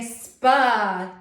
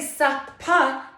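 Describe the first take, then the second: First: The two letters are blended into one sound. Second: The two letters are sounded separately with vowels. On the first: The speaker calls it right. "I say spa" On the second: The speaker calls it wrong. "I don't say sup-pa"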